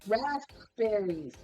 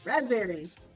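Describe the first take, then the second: First: The word is said slowly and carefully. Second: The word is said at normal conversational speed. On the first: "If you say it slow" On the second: "if you just normally say it"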